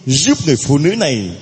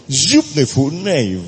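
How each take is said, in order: Both takes have the same delivery.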